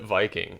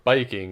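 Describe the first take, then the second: First: The word is said with English pronunciation. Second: The word is said with Japanese pronunciation.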